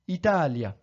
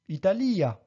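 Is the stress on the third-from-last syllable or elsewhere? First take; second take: third-from-last; elsewhere. First: The stress is on the third-from-last syllable. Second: The stress is not on the third-from-last syllable. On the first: The speaker calls it right. "mais bien ... Italia" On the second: The speaker calls it wrong. "et non pas ... Italia"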